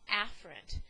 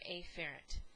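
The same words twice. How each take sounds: First: The word is said naturally with relaxed vowels. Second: The word is said with over-enunciated, distinct vowels. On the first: The speaker calls it right. "it's really pronounced afferent" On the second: The speaker calls it wrong. "I'm going to purposely pronounce that word in the incorrect way"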